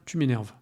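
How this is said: It is said in a fairly neutral, basic tone. The annoyance is stated but not strongly felt. "c'est sur un ton assez neutre, basique"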